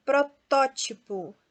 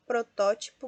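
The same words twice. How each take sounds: First: "Protótipo" slow, TÓ punched louder; antepenultimate stress. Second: Said in the usual way. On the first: Shown as a demonstration. Teacher tests the strong syllable, slow "Protótipo" stressed on TÓ. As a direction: stretch "Protótipo", leaning on "tó". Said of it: "também a antepenúltima é a mais forte". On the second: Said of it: "Então, proparoxítona nós temos".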